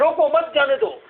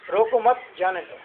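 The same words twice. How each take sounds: First: Higher-pitched, mildly heated demo; mock quarrel. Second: Said in the usual way. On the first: Shown as a demonstration. Teacher acts out someone in a fight saying let it go, mildly heated. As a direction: urge it as if arguing, pitch up. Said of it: "आप लड़ रहे हैं". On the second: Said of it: "कोई आपको इशारा कर रहा है".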